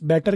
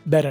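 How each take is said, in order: First: The middle consonant is a clear T sound. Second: The middle consonant is a soft R-like flap.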